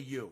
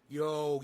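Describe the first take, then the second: First: The word ends with an 'oo' vowel. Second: The word ends with an 'oh' vowel. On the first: "He doesn't say you" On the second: "He goes yo"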